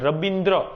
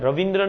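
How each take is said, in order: First: The second consonant is a b sound. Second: The second consonant is a v sound. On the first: This is how English speakers said it. The speaker calls it wrong. "એમનાથી ઉચ્ચારણ થાય રબિન્દ્ર" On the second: This is the original native name. The speaker calls it right. "રવિન્દ્ર બોલતા ના આવડે અંગ્રેજોને"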